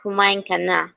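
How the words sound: Kumain is said with strong emphasis. It states that the listener has already eaten. "putting on an emphasis on kumain"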